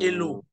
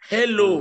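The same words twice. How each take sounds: First: The initial h sound is dropped. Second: The initial h sound is clearly pronounced. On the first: The speaker calls it wrong. "not hello" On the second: The speaker calls it right.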